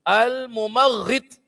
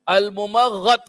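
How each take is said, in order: First: The vowel after the gh sound is 'i'. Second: The vowel after the gh sound is 'a'. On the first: "boleh dibaca dengan baris bawah" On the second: "boleh dibaca dengan baris atas"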